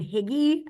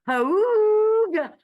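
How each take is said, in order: First: The first vowel sounds like 'ih'. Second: The first vowel sounds like 'oo'. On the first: The speaker calls it wrong. "I kept thinking it was saying Higgy" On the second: The speaker calls it right. "now it's pronounced like Hooga"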